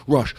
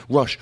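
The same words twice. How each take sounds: The two takes are said the same way.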